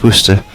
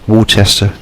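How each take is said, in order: First: It is pronounced the way locals say it. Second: It is pronounced the way Americans would say it. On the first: This is how the name is really said. The speaker calls it right. "and it's Worcester" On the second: Someone unfamiliar with the name said it. The speaker calls it wrong. "It's like them saying that it's Marlborough in Worcester"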